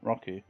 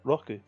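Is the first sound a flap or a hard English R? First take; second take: hard R; flap. First: The r is a hard, curled English r. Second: The r is a light tap between r and l. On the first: "rather than" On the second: "It's not a hard R. It's kind of an in between of an R and an L"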